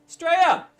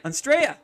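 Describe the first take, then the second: First: Australia yelled even higher and louder, peaking; louder excited shout. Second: High, loud happy call of the country name; excited shout. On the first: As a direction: belt out Australia at the top of the voice. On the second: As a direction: call out Australia with glee. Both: Real, not acted. Viewer writes from Australia.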